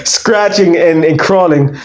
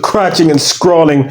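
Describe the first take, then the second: First: Said in the usual way. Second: "crouching and scrawling", sounds swapped between the words; garbled "crouching and scrawling", the S-C-R moved onto crawling; slip of the tongue. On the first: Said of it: "My bad". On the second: Real, not acted. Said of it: "Wait, what did you say? My bad".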